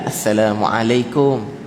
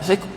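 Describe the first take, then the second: First: The greeting is said carefully and gently. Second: The greeting is said quickly and hurriedly.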